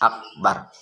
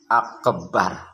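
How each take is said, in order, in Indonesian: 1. Huruf b tunggal dan pendek. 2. Huruf b digandakan dan ditahan. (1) "Jadi harus akbar" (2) "Tidak mentasdidkan huruf ba pada lafaz akbar. Akbar, tidak boleh"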